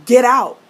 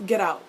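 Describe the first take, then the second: First: Loud, forceful "get out"; shouted order. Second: Said in the usual way. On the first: Acted. Fan ordering Jace out over cats, shouting. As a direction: bellow it as a final dismissal. Acted dismissal, shouted this time.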